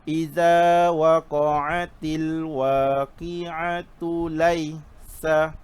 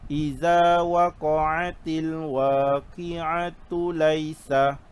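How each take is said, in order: Both takes have the same delivery.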